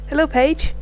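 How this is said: It is said in the speaker's natural voice. The speaker calls it right. "I'll just do normal voice for her"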